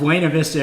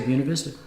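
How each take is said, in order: First: It is pronounced the way people elsewhere say it. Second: It is pronounced the way the town's locals say it. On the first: "It's Buena Vista everywhere else" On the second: "They say Buena Vista"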